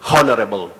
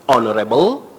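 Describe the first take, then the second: First: The word starts with an h sound. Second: The word starts without an h sound. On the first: The speaker calls it wrong. "you may hear somebody saying honorable" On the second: The speaker calls it right. "the correct pronunciation is honorable, with H being silent"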